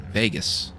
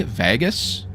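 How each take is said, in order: First: Vegas with a long A as in day, settled fall; his own way. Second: Vegas with the short A of cat, questioning rise; trying the other vowel. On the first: Canadian streamer answers chat with his own VAY-gus. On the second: Streamer tries chat's way of saying Vegas, testing the short A. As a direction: say Vegas as VAA-gus, testing it. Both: Shown as a demonstration. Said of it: "how do you say it?".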